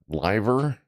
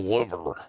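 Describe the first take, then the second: First: It is said unlike the body organ. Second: It is said like the body organ. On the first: The speaker calls it right. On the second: The speaker calls it wrong.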